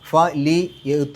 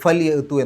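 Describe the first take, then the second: First: The vowel after the l is pronounced fully. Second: The vowel after the l is dropped. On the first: "ഫ ലി യഅ്തൂ എന്നുള്ളത്" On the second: "ഫൽ യഅ്തൂ എന്നാവും"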